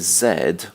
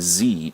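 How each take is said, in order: First: The letter is said in a non-American way. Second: The letter is said in an American way.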